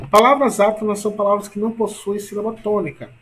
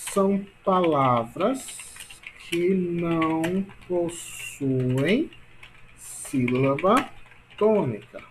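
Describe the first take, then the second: First: Said in the usual way. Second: Very slow, stretched words with pauses; slow dictation. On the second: Shown as a demonstration. Teacher dictating a definition to class, slow dictation. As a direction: dictate it piece by piece, drawing out each word.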